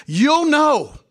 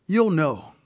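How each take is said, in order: First: High and loud, ringing out; a sudden high, loud declaration; emphatic preaching shout. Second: Said in the usual way. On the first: Real, not acted. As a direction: cry it out to the congregation. Preacher driving point home.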